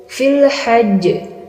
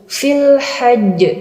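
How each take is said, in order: The two takes are said the same way.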